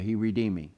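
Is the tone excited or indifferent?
indifferent. It is said flatly, without feeling. The words are said without being felt. The speaker calls it wrong. "if they're only words, oh yeah"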